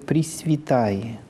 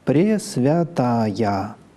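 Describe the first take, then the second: First: No y-glide comes before the final vowel. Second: A clear y-glide comes before the final vowel. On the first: This is the standard literary pronunciation. "В литературном произношении это" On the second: This is the strict church pronunciation. "С точки зрения церковного произношения"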